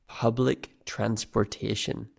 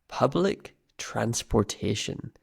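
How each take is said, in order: No difference in how they are said.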